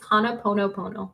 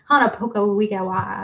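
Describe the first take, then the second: First: The term ends with a repeated 'pono' sound. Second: The term ends with garbled 'poko wigawa' sounds. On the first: The speaker calls it right. "Ava says it's Hana Pono Pono" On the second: The speaker calls it wrong. "That's what I said, and I butchered it"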